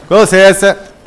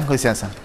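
First: Com licença! called out louder and higher; loud excuse me. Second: Said in the usual way. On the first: Acted. Gamer calling out to the ladies to clear the way.

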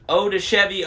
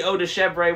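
First: "Chevy" said SHEV-ee; mispronounced French. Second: "Chevre" said SHEV-ray; attempted French. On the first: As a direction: say "Chevy" like the car, no R. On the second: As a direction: say "Chevre" with an R and an AY ending. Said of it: "V R E". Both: Real, not acted.

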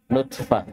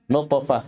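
First: Thin, front T where نطفة is written; light tā'. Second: Heavy, dark T in نطفة; emphatic ṭā'. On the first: Teacher contrasts tā' mid-word, light T. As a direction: say نطفة with plain dental T in place of ط. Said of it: "فرقوا بين الطاء والتاء". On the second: Teacher shows ṭā' mid-word, emphatic T. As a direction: say نطفة with a backed, bouncing T. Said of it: "طأ في وسط الكلمة". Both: Shown as a demonstration.

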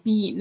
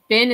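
First: "bean" said with a long ee, like the word bean; narrator's odd been. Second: Said in the usual way. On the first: Retold or imitated. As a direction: imitate her saying "bean", a long ee vowel. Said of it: "it's like". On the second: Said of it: "every time she says".

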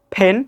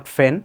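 First: ফেন as "pen", lips closed then a puff of air; correct p sound. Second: ফেন as "fen", f replacing p; lower-pitched ফেন with a hissing f; wrong f sound. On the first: Teacher models for learners, ফেন with puffed p. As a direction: pop an aspirated p to start ফেন. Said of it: "not ফেন". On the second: Teacher shows the error, ফেন begun with f. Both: Shown as a demonstration.

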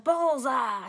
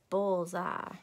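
First: A mild triumphant yell of Bullseye; lightly voiced happy shout. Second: Said in the usual way. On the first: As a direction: call out Bullseye like a cheer. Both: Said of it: "she yelled".

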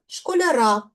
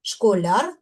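First: Школяра stressed on final "ра"; stress on ending. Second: Школяр stressed on final "ляр"; stress on suffix. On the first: Teacher showing stress moving in genitive, stress on ending. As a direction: carry the stress to the last syllable of школяра. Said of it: "в родовому на закінчення". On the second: Teacher demonstrating nominative case stress, stress on suffix. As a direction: put the weight on "ляр" in Школяр. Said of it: "наголос падає на суфікс яр". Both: Shown as a demonstration.

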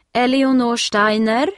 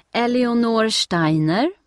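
First: Loud raised call, name stretched out; a lady with a list calling a name, loud and insistent. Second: Loud, slow call across a crowded hall; a lady reading names off a list, calling loudly. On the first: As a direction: call it again so the child will answer. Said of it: "ropar damen med listan". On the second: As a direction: call the name out to the waiting crowd. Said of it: "hör Steffi damen ropa". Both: A narrator's reading.

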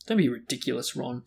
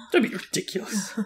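First: Said in the usual way. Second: Higher-pitched, laughing repeat; giggly mock rebuke. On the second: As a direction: repeat it teasingly through giggles. Reader repeats the line, giggling.

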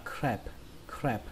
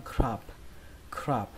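First: Crab said as "kreb", vowel as in cat; "crab" with a flat front "ae" vowel; flattened A vowel. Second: Crab said as "krab" with an open ah; "crab" read as spelt, vowel like Vietnamese a. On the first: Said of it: "thành âm a bẹt". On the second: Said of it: "cách đọc nó y hệt cách viết". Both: Shown as a demonstration.

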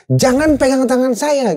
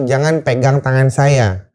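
First: High, slow emphatic command; clear instruction. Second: Slow, lower, deliberate command; clear instruction. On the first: Survivor ordering a panicking man off him, high-pitched firm command. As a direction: call the order out, raised in pitch. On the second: Survivor instructing a panicking man, slow clear command. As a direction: spell out the order word by word. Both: Retold or imitated. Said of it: "instruksi jelas tuh".

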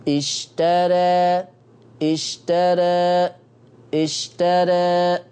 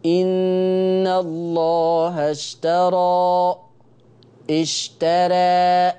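First: Slow اشترى with a narrowed, tilted alif; اشترى recited with the alif leaning toward e; taqlil recitation. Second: Slow recited اشترى with a wide-open alif; اشترى recited with a light r and a full open alif; full fatha recitation. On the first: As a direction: chant اشترى with the mouth opening half and horizontal. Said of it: "أنا عايز تقليل". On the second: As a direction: chant اشترى with a full vertical opening. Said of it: "كده رققت ... وفتحت فتحة كاملة". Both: Shown as a demonstration.

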